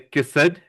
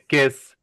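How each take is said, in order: First: The ending is said as an extra syllable. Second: The ending is said as a short T sound. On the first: The speaker calls it wrong. "we don't say kissed" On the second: The speaker calls it right. "the T sound"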